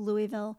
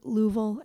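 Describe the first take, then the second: First: The name is said the common outsider way. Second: The name is said the local native way. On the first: The speaker calls it wrong. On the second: The speaker calls it right.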